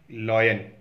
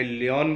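First: लायन said as lie-un, short and low at the end; teacher's correct लायन, lie-un; correct pronunciation. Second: लियोन said as lee-on, two clear syllables; the wrong lee-on version of lion; common mispronunciation. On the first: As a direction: model the right लायन for the class. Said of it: "लेकिन actual pronunciation होती है". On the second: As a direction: show the lee-on way some people say it. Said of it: "अलग अलग जगह अलग अलग pronunciation होती है". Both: Shown as a demonstration.

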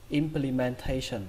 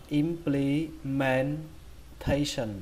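First: Said in the usual way. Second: "implementation" slow, broken into syllables; drawn-out teaching model of "implementation". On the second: Shown as a demonstration. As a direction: spell out "implementation" sound by sound. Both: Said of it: "Các bạn đọc là".

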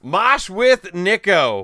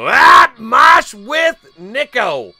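First: Raised, higher calling voice; loud repeat announcement, short of screaming; announcing loudly. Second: Very high, loud, slow holler; big drawn-out high shout; shouted winner announcement. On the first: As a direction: call the winner's name clearly and loudly. Repeats the drawn name less forcefully. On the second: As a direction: bellow out the drawn name, stretched out. Announces the newly drawn name. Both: Real, not acted.

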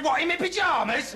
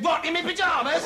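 First: High-pitched, affronted question; incredulous. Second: High, shouted incredulous question; shouted down the road. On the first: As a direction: question the order in raised-pitch disbelief. First reply to boss indoors. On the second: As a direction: yell it after someone who has gone. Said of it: "so I ran outside and said". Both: Acted.

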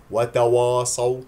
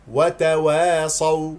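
First: "وتواصوا" loud, with a dark backed waw; mistaken heavy و. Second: "وتواصوا" slow and loud, thin fronted wae; correct light و. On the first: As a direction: wrongly thicken "وا" in "وتواصوا". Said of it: "هذا خطأ". (نطق "وتواصوا" خطأً باستعلاء الواو) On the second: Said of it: "لا تستعلي". (ترتيل "وتواصوا" بترقيق الواو) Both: Shown as a demonstration.

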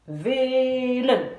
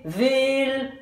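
First: VELEN chanté «vee-len», le L ouvrant la seconde syllabe; chanté, bonne coupe. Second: VELEN chanté coupé après le L, «veel-en»; chanté, mauvaise coupe. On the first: (chanté, coupé avant le L) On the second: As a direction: chanter en détachant le «en» final. (chanté, coupé au mauvais endroit) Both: Shown as a demonstration. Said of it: "Vous n'allez pas chanter".

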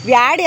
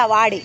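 First: ವ್ಯಾಡಿ with a y glide after the v, the wrong way; the mistaken vyaa-di form of the word; wrong pronunciation. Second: ವಾಡಿ with a plain v and no y glide, vaa-di; the corrected plain vaa-di form; correct pronunciation. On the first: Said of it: "ವ್ಯಾಡಿ ಅಲ್ಲ". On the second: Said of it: "ವ್ಯಾಡಿ ಅಲ್ಲ, ವಾಡಿ". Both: Shown as a demonstration.

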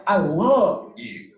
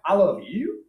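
First: I LOVE you, slow with LOVE falling; LOVE leaned on, slow and falling; stress on love. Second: I love YOU with a rising question; YOU stressed and rising. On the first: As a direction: draw out LOVE and bring it down. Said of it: "accent this". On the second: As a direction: lean on YOU, then lift it up. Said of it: "what if I accent this word here?". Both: Shown as a demonstration.

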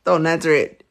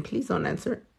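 First: Firmer repeat with a falling stress on Don't. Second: Much softer, almost under the breath; softly pleading. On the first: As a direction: land hard on Don't as a warning. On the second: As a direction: drop the volume as a gentle request. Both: Real, not acted. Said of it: "giving you guys a trick question".

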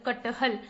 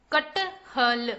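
First: Said in the usual way. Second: कटहल stretched slowly as क-ट-ह-ल; syllable by syllable. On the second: Shown as a demonstration. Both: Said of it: "चलिए बच्चों, पढ़ते हैं।".

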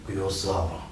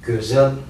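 First: «гюзалом» with «а» in the second syllable; altered pronunciation. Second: «гюзель» with a rounded front first vowel; original pronunciation. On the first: Teacher shows the changed word, softer Russified «гюзалом». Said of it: "становится". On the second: Teacher shows the original word, front vowels in «гюзель». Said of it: "А слово". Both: Shown as a demonstration.

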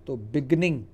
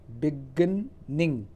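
First: Said in the usual way. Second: beginning drawn out very slowly, first syllable stressed. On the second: Shown as a demonstration. Teacher slowly demonstrates stress in beginning for students. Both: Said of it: "इसका stress यहाँ पर आता है".

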